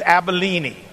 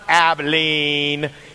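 First: It is said like the ancient kingdom's name. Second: It is said like the Texas city's name. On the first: It names the ancient kingdom near Lebanon. The speaker calls it right. "it is Abilene" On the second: It names the modern city in Texas. The speaker calls it wrong. "the correct pronunciation of this is not Abilene"

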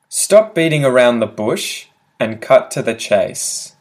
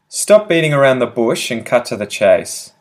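First: The sentence is spoken slowly and carefully. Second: The sentence is spoken quickly at natural speed.

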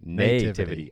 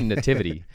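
First: The first syllable is a drawn-out 'nay'. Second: The first syllable has a short, reduced vowel. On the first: "why do you hold out that nay?" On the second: "I say Nativity"

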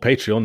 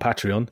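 First: The first syllable sounds like "pay". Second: The first syllable sounds like "pat". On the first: The speaker calls it right. "it's still called Patreon" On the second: The speaker calls it wrong. "not Patreon"

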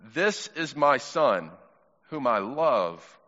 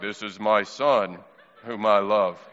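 First: It is read in his normal voice. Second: It is read in a put-on God voice.

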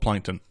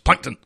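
First: The name is said flatly, without excitement. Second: The name is said loudly, with excited emphasis.

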